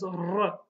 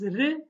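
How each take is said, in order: First: "r" strongly rolled on the tongue tip; stronger R. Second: "re" with a single light tongue tap. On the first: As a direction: trill "r" long and hard. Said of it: "it will be stronger". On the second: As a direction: flick the r in "re" once. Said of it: "So this is re". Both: Shown as a demonstration.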